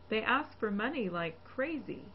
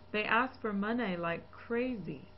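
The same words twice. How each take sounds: First: The last vowel of money is a clear ee. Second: The last vowel of money is an off vowel. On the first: The speaker calls it right. "the correct E" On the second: The speaker calls it wrong. "an erroneous E"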